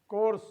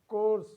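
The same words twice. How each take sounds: No difference in how they are said.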